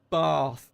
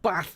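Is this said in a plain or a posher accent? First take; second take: posher; plain. First: It is said in a more refined accent. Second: It is said in his everyday regional accent. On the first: The speaker calls it right. "it's bath" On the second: The speaker calls it wrong. "Not bath"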